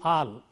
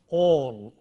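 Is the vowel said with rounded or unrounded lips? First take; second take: unrounded; rounded. First: The vowel is said with unrounded lips. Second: The vowel is long with rounded lips. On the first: The speaker calls it wrong. "If you don't round your lips for this, you end up saying all" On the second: The speaker calls it right. "The vowel here is a rounded vowel, it's a long vowel, so all"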